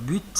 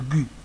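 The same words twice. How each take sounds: First: The final T sound is pronounced. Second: The final T sound is silent. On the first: "j'ai l'habitude de dire but" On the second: "normalement on dit le but. D'accord, le T en français à la fin ne se prononce pas"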